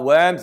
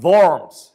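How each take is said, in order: First: It is said like the English word for earthworms. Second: It is said the German way, as the city name. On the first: The animals. "Not worms" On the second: The city in Germany. "The place in Germany is called Worms"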